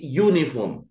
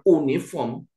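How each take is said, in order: First: The word starts with a 'y' sound. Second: The word starts with a plain vowel sound. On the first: The speaker calls it right. "tapi uniform. ... cara membacanya adalah U" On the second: The speaker calls it wrong. "ini bacanya bukan uniform"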